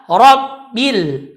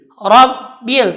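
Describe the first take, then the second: First: The r sound is heavy and thick. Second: The r sound is heavy and thick.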